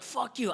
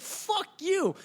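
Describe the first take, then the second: First: Retold yelling. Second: Much higher, drawn-out mock yell; retold yelling. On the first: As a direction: curse in a half-hearted yell. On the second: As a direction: repeat the curse with more force and a high pitch. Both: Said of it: "I'm, like, yelling at him".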